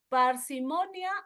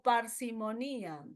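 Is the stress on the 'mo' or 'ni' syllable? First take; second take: mo; ni. First: The stress falls on the 'mo' syllable. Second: The stress falls on the 'ni' syllable.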